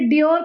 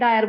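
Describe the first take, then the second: First: The name is said as dee-or. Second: The name is said as dye-er. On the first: The speaker calls it right. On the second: The speaker calls it wrong.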